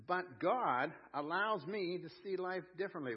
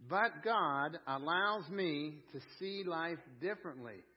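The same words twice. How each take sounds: First: Said in the usual way. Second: Slowed, every word laid out for the room to repeat; slow call-and-response. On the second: Shown as a demonstration. Preacher leading the congregation to repeat the line, slow. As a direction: say it slowly so they can join in. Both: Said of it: "Would you say that with me?".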